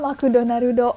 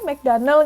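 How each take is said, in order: First: It is said with a Japanese accent. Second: It is said with an Indonesian accent.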